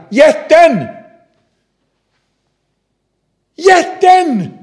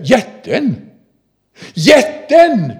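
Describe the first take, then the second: First: Put-on very high, loud child's shout; little girl screaming. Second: Put-on loud, higher call, less shrill than the girl; father calling out. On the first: Little girl screaming for the stone lifter, very high and loud. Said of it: "skriker lillflickan". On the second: Father echoing his daughter's cry, loud and high. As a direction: repeat the girl's cry as the father. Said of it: "far säger".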